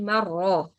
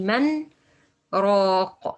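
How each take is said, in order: First: The n merges into the r with no break. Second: A brief pause separates the n from the r. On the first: The speaker calls it wrong. "I can't say marra" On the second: The speaker calls it right. "I have to say man raq. Why it's exception? Because we have sakt here"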